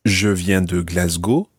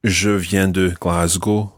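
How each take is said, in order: First: Glasgow said with a French accent. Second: Said in the usual way. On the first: Shown as a demonstration. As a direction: give Glasgow a French pronunciation, rising at the end. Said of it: "try to say them in a French accent".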